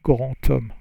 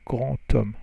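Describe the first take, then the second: First: The words are linked with a T sound. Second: The words are linked with a T sound.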